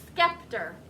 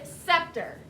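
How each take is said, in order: First: The c is sounded, like a k. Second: The c is silent, starting with s. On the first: It is a spelling aid, not the real pronunciation. "in my head I think scepter" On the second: It is the real pronunciation of the word. "But it is the word scepter"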